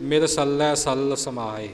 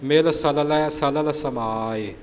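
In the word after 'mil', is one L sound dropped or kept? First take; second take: dropped; kept. First: One L sound is dropped from 'salalai'. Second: Both L sounds in 'salalai' are pronounced. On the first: The speaker calls it wrong. "ਅਸੀਂ ਤੇਜ਼ੀ ਵਿੱਚ ਅਣਗਹਿਲੀ ਵਿੱਚ ਇਉਂ ਕਰ ਜਾਂਦੇ ਹਾਂ ... ਇਉਂ ਇਹ ਉਚਾਰਣ ਗਲਤ ਹੋ ਜਾਂਦਾ ਹੈ" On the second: The speaker calls it right. "ਦੋਹਾਂ ਲੱਲੇ ਅੱਖਰਾਂ ਦਾ ਉਚਾਰਣ ਸਹੀ ਹੋਵੇ"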